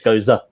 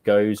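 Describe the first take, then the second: First: The word is said with an added final syllable. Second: The word is said as one short syllable. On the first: The speaker calls it right. "but it's gozer. It's like a slight accent on the end" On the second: The speaker calls it wrong. "I just said goes"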